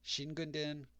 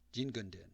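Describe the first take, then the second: First: The word begins with a voiceless 'sh' sound. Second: The word begins with a voiced 'j' sound. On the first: "the majority of people do pronounce it Shingunden" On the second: "The pronunciation of Jin instead of Shin at the beginning"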